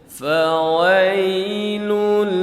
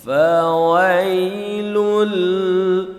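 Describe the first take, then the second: The two takes are said the same way.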